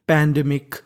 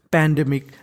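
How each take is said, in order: Both takes have the same delivery.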